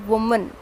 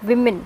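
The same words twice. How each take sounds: First: Woman said WUH-mun, with the oo sound of wood; woman with a rounded first vowel; showing the wrong way: woman as WUH-mun; wrong form. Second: Women said WIM-in, with the short i of win; women with a short i, not oo; teacher modelling women as WIM-in; correct form. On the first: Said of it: "this is not woman". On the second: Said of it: "this is women". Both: Shown as a demonstration.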